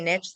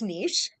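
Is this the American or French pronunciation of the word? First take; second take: American; French. First: It is said with an American pronunciation. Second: It is said with a French pronunciation. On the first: The speaker calls it wrong. "Americans say niche, that is incorrect" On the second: The speaker calls it right. "It's a French word, it's pronounced niche"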